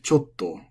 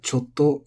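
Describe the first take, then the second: First: The word has a pitch accent with a drop. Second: The word is flat with no pitch drop. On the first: It comes before other verbs. "I think it's normally accented like chotto" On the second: It comes before shita. "it's pronounced like chotto when it's going before shita"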